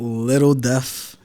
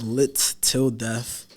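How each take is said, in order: First: The first two syllables run together as 'little'. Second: It is said as separate words 'lit till'. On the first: The speaker calls it wrong. "It's not Little Death" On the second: The speaker calls it right. "It's Lit Till Death"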